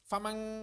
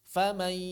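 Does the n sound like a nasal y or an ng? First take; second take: ng; nasal y. First: The n is said as a clear ng sound. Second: The n blends into a nasal y sound. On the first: The speaker calls it wrong. "jangan famang" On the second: The speaker calls it right. "suaranya suara ya"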